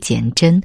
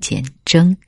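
First: The last syllable ends in a front nasal. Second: The last syllable ends in a back nasal. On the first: The speaker calls it wrong. "以前我一直读简峥" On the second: The speaker calls it right. "应该是后鼻音简峥"

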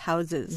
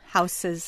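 First: The middle consonant is a buzzing Z sound. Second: The middle consonant is a hissing S sound. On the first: "what sounds like a Z" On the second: "An S sound"

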